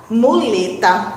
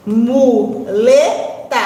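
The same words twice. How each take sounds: First: Said in the usual way. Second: "Muleta" very slow, split into mu, le, ta; syllable by syllable. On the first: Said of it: "vamos primeiro separar as sílabas". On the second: Shown as a demonstration. Teacher hunting the middle of "Muleta", slowly syllable by syllable. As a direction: stretch and separate each syllable of "Muleta". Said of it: "separar as sílabas".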